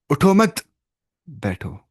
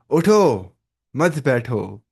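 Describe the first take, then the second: First: Group "उठो मत" together, pause before बैठो; उठो मत … बैठो, dropping on बैठो; pause after मत. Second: उठो … मत बैठो, falling at the end; pause after उठो. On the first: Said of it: "पहले थोड़ा पॉज लेना पड़ता है बीच में". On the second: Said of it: "pause correct जगह पे देना". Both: Shown as a demonstration.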